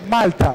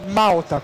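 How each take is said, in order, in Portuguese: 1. O l do meio é um l claro. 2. O l do meio soa como um u. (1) "note o L. Ele sempre vai ter o som de L" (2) "não Malta, como a gente falaria aqui"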